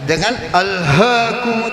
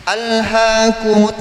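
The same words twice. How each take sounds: First: "alhaakumut" with the "h" held tight from the throat. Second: "Alhaakumut" with the "h" released on loose breath; wrong breathy h. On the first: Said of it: "sama enggak?". ("alhaakumut" dengan h dari tenggorokan) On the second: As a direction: let the "h" in "Alhaakumut" escape as open breath. ("Alhaakumut" dengan h dilepas napas, salah) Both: Shown as a demonstration.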